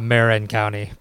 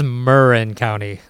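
First: It is said with a Midwestern accent. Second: It is said the local Californian way. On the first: The speaker calls it wrong. "not Marin County. But I blame my Midwestern Chicago accent for that one" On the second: The speaker calls it right. "I learned today that it's Marin County"

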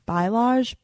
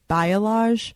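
First: The word is said with a nonstandard pronunciation. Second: The word is said with its standard pronunciation. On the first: The speaker calls it wrong. "I always say it wrong" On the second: The speaker calls it right. "but it's Bialage"

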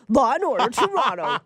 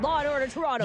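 First: It is said in a deep, dramatic announcer voice. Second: It is said in an ordinary speaking voice. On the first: The speaker calls it right. "that deep Law and Order voice" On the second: The speaker calls it wrong. "You got to do it in the voice"

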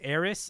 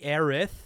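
First: The name ends with an s sound. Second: The name ends with a th sound. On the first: This is the older, familiar form of the name. "I played this game back in high school and she was Aerith" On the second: This is the official form of the name. "technically Aerith with TH on the end"

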